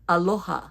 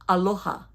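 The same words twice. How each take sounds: The two takes are said the same way.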